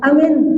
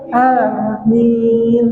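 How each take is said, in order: First: The first vowel is kept short. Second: The first vowel is held long. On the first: It means a trustworthy person. The speaker calls it wrong. "Bukan amin" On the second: It asks that the prayer be accepted. The speaker calls it right. "itu bujur alifnya panjang"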